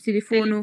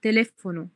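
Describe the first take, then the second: First: The stress is not on the second syllable. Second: The stress is on the second syllable. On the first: The speaker calls it wrong. "مش تليفونو" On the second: The speaker calls it right. "حطيت stress على الA التانية"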